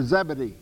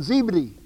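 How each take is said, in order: First: Zebedee with a short e first, ZEB-uh-dee; short "zeb" opening on Zebedee; alternative pronunciation. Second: Zebedee with a long ee first, ZEE-buh-dee; long "zee" opening on Zebedee; alternative pronunciation. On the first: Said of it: "however you say it". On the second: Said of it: "or Zebedee, however you say it". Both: Shown as a demonstration.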